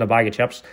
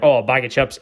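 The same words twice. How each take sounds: First: Said in the usual way. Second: Mock impression. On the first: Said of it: "do an impression of her". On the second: Dad echoing the counter woman's order, lightly mocking impression. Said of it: "making fun of her".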